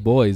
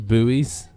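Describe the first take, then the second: First: The word is said in one syllable, boys. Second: The word is said in two syllables, boo-eez. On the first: This is what the speaker calls them. The speaker calls it right. "isn't it a silent U?" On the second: This is what Americans call them. The speaker calls it wrong. "What do you call these things in America"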